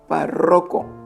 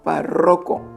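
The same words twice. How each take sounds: First: The stress is on the second syllable. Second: The stress is on the second syllable.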